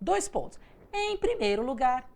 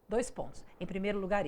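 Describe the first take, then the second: First: The pitch rises and falls with lively variation. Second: The pitch stays level with no ups and downs. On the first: It is an ordinary lively way of explaining. "como uma aula que a gente, enquanto professor, fala assim" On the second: It reflects a condition that flattens the voice. "monocórdica. Exatamente isso"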